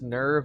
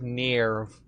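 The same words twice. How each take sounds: First: The vowel sounds like the one in 'her'. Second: The vowel sounds like the one in 'ear'. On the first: The speaker calls it right. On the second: The speaker calls it wrong.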